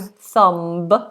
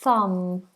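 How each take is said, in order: First: A b sound is pronounced after the m. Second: The word ends on m, with a silent b. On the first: The speaker calls it wrong. "We don't do thumb" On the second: The speaker calls it right. "just thumb"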